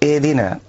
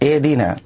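First: The h is cut short and barely heard. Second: The h is cut short and barely heard.

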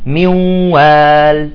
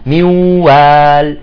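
The two takes are said the same way.

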